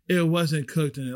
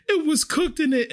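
First: Said in the usual way. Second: Very high, whiny panic in imitation; hammed-up hysterical diner, pitch way up; mock freak-out. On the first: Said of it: "her husband even looked at her like". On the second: Customer panicking to the waitress about her food, high mock wail. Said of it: "But she is freaking out".

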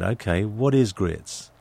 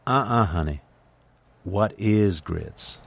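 First: Said in the usual way. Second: Slow, whispered Southern drawl, mock-correcting; Southern waitress. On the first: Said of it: "And I said". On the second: Waitress corrects an English customer, in a slow whispered Southern drawl. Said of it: "And she said".

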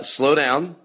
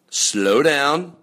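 First: Slowed way down. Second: Said in the usual way. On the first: Shown as a demonstration. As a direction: stretch out slow down, very slow.

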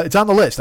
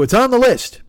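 First: Said in the usual way. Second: Much higher, louder self-quote; exaggerated high-pitched put-off line; stock brush-off. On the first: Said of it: "I'm just like". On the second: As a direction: pitch it way up, playing your own stock excuse. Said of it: "I always go".

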